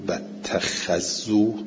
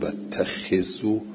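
First: The kh sound is followed by an a vowel. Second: The kh sound is followed by an i vowel. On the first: It reports that others used to pray there. "مفتوحت الخاء" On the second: It is a command that makes the prayer obligatory. "مکسورت الخاء"

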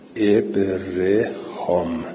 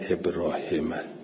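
First: The name ends with a long 'ham' sound. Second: The name ends with a final 'hama' sound. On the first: The speaker calls it right. "ابرهام باشه" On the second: The speaker calls it wrong. "نه ابراهمه"

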